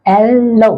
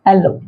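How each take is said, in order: First: Drawn-out "एल-लो"; lingering two-beat एलो; syllable by syllable. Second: Said in the usual way. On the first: Shown as a demonstration. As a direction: stretch both halves of एलो. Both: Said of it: "ये देखिए डायसिलेबिक है".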